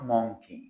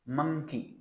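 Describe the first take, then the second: First: The first vowel sounds like 'o' in 'on'. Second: The first vowel sounds like 'uh'. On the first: The speaker calls it wrong. "Not monkey" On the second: The speaker calls it right. "It's pronunciation is मंकी"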